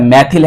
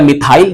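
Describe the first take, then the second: First: The last syllable sounds like 'thil'. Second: The last syllable sounds like 'thail'. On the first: "मैथिल है ना" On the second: "या मिथाइल जैसा आप पढ़ते हो"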